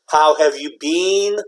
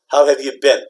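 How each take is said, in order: First: The last word has a long 'ee' vowel. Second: The last word has a short 'i' vowel. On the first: The speaker calls it wrong. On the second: The speaker calls it right. "very short"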